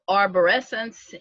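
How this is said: The word is said with an English pronunciation. "in English"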